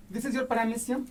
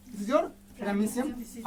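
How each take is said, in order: First: Said in the usual way. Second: Very slow, each word drawn out. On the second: Shown as a demonstration. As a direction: spell it out slowly for the kids.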